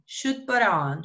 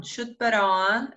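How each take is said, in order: First: Said in the usual way. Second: Slow, careful repeat. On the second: Shown as a demonstration.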